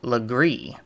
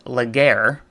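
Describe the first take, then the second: First: The name ends with a 'gree' sound. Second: The name ends with a 'gair' sound. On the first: The speaker calls it right. "it is actually pronounced Legree" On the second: The speaker calls it wrong. "it is not pronounced Laguerre as it looks"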